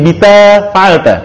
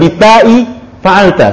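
First: The letter name ends without a glottal stop. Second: The letter name ends with a glottal stop. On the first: The speaker calls it right. "tapi bita fa'alta" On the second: The speaker calls it wrong. "jadi bukan bita'i fa'alta"

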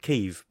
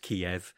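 First: The name has a pronunciation closer to the local one. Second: The name has an older anglicised pronunciation. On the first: This is how the city is called now. "now we call it Kiev because we've opened ourselves up to the world and the local pronunciation" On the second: This is how the city used to be called. "we always used to refer to Kiev as Kiev"

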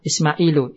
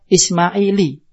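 First: The name ends in a plain u vowel. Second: The name ends in a plain i vowel. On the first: The speaker calls it right. "kita mengucap apa misalkan contohnya Ismailu" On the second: The speaker calls it wrong. "tidak bisa dikasro"

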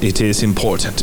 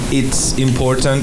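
First: "It is" is said as two full words. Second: "It is" is shortened to "it's". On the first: "Cuando no acortamos el S" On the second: "Eso es contraído, acortado"

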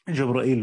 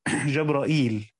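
First: The vowel after the hamza is cut short. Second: The vowel after the hamza is fully lengthened. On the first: "بالاختلاس" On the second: "بالهمز والإشباع بوزن سلسبيل"

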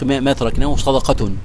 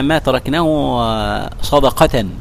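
First: The last word ends with an -un sound. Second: The last word ends with an -an sound. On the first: What we leave behind is charity. "هي خبر" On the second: What was left is set aside as charity. "هي بالنصب لا بالرفع"

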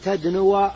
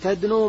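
First: The verb ends with a short 'a' vowel. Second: The verb ends with no final vowel. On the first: The speaker calls it wrong. "فلا يقرأ بالنصب، فلا تقول" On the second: The speaker calls it right. "إنما تسكنه"

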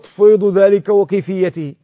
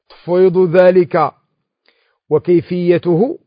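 First: The last word ends with an i vowel. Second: The last word ends with a u vowel. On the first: The manner is joined to the thing entrusted. "ويجوز الجر أيضا" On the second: The manner is joined to the act of entrusting. "نعطف الكيفية على التفويض"

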